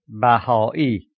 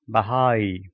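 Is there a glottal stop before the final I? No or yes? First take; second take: yes; no. First: The word has a glottal stop before the final I. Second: The word has no glottal stop before the final I. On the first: The speaker calls it right. "the correct pronunciation is" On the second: The speaker calls it wrong. "Without it, the word would be pronounced"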